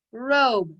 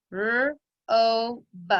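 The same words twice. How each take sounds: First: Said in the usual way. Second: "R-O-B" split into rr, long o, buh; tapped-out sounds. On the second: Shown as a demonstration. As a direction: sound out "R-O-B" with gaps between the sounds. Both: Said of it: "Tap it out".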